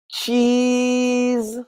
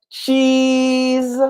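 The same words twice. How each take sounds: Both takes have the same delivery.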